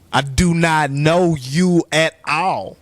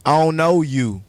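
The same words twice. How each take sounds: First: Every word of "I do not know you at all" spaced out slowly, "not" pressed hard; slow emphatic denial. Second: Said in the usual way. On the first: Real, not acted. Repeats denial, slow and firm.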